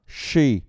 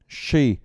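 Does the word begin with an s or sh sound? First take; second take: sh; sh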